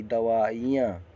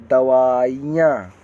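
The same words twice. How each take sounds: First: दवाइयाँ slow, with a short i before "yaan"; lighter, careful short-i दवाइयाँ; correct short vowel. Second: दवाइयाँ loud, with a long drawn ee; slow, forceful long-ee दवाइयाँ; wrong long vowel. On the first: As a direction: sound out दवाइयाँ slowly with a brief i. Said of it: "छोटी दवाइयाँ". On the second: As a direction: stretch दवाइयाँ out on a heavy long ee. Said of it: "बड़ी की मात्रा". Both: Shown as a demonstration.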